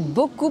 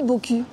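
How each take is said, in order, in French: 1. La deuxième voyelle est un son 'ou' arrondi. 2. La deuxième voyelle est un son 'u' antérieur.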